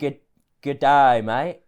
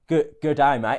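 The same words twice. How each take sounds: First: It is said slowly, drawing out the ah. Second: It is said quickly, ah not drawn out.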